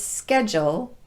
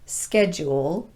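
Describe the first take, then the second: First: The vowel after the D is a schwa. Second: The vowel after the D is a long U. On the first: The speaker calls it right. "reduced the long U sound to more of a schwa vowel. So it's schedule" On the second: The speaker calls it wrong. "not schedule"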